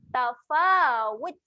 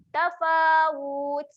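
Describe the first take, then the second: First: The last vowel is kept short. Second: The last vowel is drawn out long. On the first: The speaker calls it right. "baca dengan pendek saja" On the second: The speaker calls it wrong. "selalu kita baca dengan panjang"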